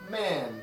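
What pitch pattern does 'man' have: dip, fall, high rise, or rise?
fall. The pitch falls sharply from high to low. "And Chinese has a falling tone"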